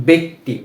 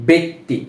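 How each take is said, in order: Both takes have the same delivery.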